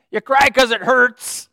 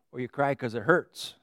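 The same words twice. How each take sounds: First: Loud slow emphasis. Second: Said in the usual way. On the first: Acted. Repeated line, louder and slower.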